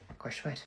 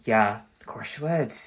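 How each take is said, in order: First: Much softer, murmured to herself; quiet echo. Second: Said in the usual way. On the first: Real, not acted. A vlogger repeating her verdict softly to herself. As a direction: repeat it under your breath.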